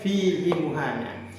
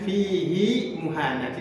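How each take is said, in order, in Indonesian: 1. Vokal pada 'hi' dibaca pendek. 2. Vokal pada 'hi' dibaca panjang. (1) "tidak boleh dibaca" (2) "saya contohkan bacaan yang benar"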